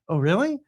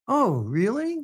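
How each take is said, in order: First: It is said quickly, run together. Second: It is said slowly, drawn apart.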